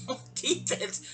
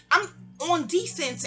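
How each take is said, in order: First: Breathy laughing echo of On defense, on defense said through a laugh, slow; repeating On defense to Allie with a laugh. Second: Said in the usual way. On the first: Real, not acted.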